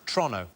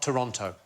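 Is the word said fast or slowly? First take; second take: fast; slowly. First: It is said very fast, Canadian style. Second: It is said slower, each syllable fuller.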